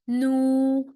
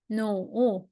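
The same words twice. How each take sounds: First: The pitch stays high and level. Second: The pitch dips low, then rises. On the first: "and the first tone" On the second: "and the third tone"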